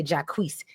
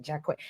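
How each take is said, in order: First: "Jacquees" ending in a sounded S; Jacquees said ja-KWEESE. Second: "Jacquet" ending in a long AY, silent T; Jacquet said zha-KWAY. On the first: Giving the other version of the name, "Jacquees" as ja-KWEESE. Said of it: "Some people like to say". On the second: Explaining the name to a co-host, "[name]" as zha-KWAY. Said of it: "how you're supposed to say it". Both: Shown as a demonstration.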